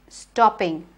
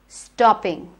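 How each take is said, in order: The two takes are said the same way.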